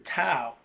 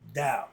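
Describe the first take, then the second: First: The word begins with a hard T sound. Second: The word begins with a D sound. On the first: The speaker calls it wrong. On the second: The speaker calls it right. "it's pronounced Tao"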